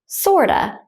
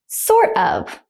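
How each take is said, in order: First: Of is reduced to a schwa sound. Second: The word of is pronounced in full.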